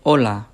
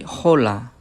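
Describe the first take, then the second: First: The word begins directly with the vowel sound. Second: The word begins with an audible h sound. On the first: The speaker calls it right. "the letter H in Spanish it doesn't sound" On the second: The speaker calls it wrong. "we don't say hola"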